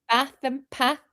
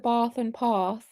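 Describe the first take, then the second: First: It is said in a plain, non-posh accent. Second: It is said in a posh-sounding accent. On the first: This is how the speaker normally talks. "I say bath and path" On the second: This is not how the speaker normally talks. "I don't do the bath and path"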